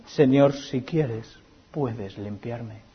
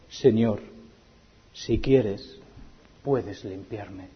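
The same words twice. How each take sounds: First: Very slow, soft pleading; hushed plea. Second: Soft, slow, pleading; humble plea. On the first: Preacher repeats the leper's plea to Jesus, hushed and slow. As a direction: let each word fall softly. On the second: Leper humbly begging Jesus to heal him, soft and slow. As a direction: beg quietly on your knees. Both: Acted.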